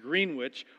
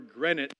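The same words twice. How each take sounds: First: It is said with the local Kansas pronunciation. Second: It is said with the standard, non-local pronunciation. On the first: The speaker calls it wrong. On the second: The speaker calls it right.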